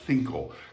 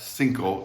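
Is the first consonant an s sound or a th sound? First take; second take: th sound; s sound. First: The first consonant is a soft th sound. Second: The first consonant is a plain s sound.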